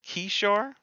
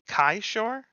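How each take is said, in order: First: The first syllable sounds like key. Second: The first syllable sounds like kai. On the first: The speaker calls it right. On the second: The speaker calls it wrong.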